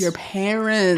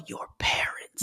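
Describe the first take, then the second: First: Slow unvoiced whisper. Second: Unvoiced whisper. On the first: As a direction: whisper it back slowly. Echoing the whisper. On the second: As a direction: breathe it under your breath. Whispered aside about parents. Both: Real, not acted.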